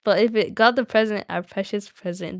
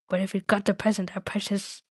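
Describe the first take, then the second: First: Lightly voiced Gollum, more emphatic; Gollum's accent. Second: Said in the usual way. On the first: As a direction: put on the creature's accent. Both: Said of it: "Do I have to say all in his accent?".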